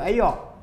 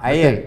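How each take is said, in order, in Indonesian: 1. Kata itu diucapkan dalam dialek kampung, vokalnya mengarah ke o. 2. Kata itu diucapkan dengan lafal bahasa Melayu baku. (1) "bagi kampung pada Malau dia sebut ayak" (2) "sekarang dah jadi A I R air"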